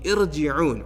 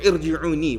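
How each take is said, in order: First: The word ends without its final vowel. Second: The word ends with its final vowel sounded.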